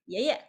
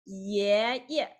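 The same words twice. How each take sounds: First: "爷爷" run together quickly as one short word; really quick. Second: "爷爷" drawn out, rising first syllable then short second; light second syllable. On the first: Teacher showing usual speech, a quick "爷爷". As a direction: say "爷爷" briskly, no gap between syllables. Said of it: "like, really quick". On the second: Teacher letting students feel the sound, slow separated "爷爷". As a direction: stretch the first 爷, place the second lightly apart. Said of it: "You can feel the let sound". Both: Shown as a demonstration.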